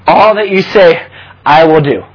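The line is said in a choked, emotional voice.

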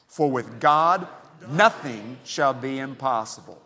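The word "nothing" carries the strongest stress. "this time emphasize the word nothing"

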